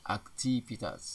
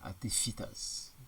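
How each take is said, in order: First: "Aktivitas" said carefully as the standard form; standard pronunciation. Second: "aktivitas" with an F, "aktifitas"; slow "aktivitas" said as ak-ti-fi-tas; nonstandard pronunciation. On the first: Teacher models standard word for class, careful "Aktivitas". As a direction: clear V-spelling reading of "Aktivitas". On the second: Teacher shows the wrong form, "aktivitas" with F. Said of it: "tidak baku". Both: Shown as a demonstration.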